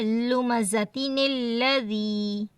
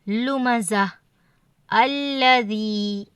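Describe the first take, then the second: First: The words run together with a linking n sound. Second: A pause separates the words with no linking n. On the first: "वसल के साथ क्या है" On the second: "पहले कलमे के आखिरी हुर्फ पर कर हमने अगर वक़फ़ किया है तो दोनों को कलमों को मिलाकर ना पढ़ें"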